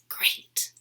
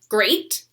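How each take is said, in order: First: The word is said in a whisper. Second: The word is said in an ordinary voice. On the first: "I might whisper it" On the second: "I'm going to practice saying it normally"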